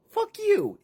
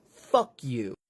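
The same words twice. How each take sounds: First: Much higher, loud squeaky curse; shrill defiance. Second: Said in the usual way. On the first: Acted. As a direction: spit it out in a squeaky shriek. [name], high shriek voice.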